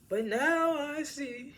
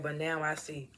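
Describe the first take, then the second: First: High, slow, drawn-out mock drama; milk the line like a soap opera hero; hammed-up dramatic line. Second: Said in the usual way. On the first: Friend mocking his corny line with a high, slow hammed-up delivery. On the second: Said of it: "He's like".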